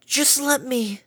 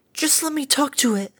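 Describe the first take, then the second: First: 1 slow plea. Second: High timid murmur; murmured plea. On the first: Fluttershy pleading again. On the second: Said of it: "Fluttershy murmured and trembled". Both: A narrator's reading.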